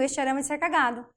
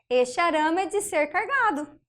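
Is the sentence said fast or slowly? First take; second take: fast; slowly. First: The sentence is said fast, words run together. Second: The sentence is said slowly, words kept apart.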